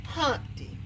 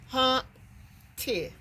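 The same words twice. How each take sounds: First: Said in the usual way. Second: "Humpty" with a clear gap between Hump and ty; split into syllables. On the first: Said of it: "How many syllables i-, is in Humpty?". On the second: Shown as a demonstration. Teacher showing the two syllables, "Humpty" pulled apart. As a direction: break "Humpty" into two held beats, higher. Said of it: "It has two syllables".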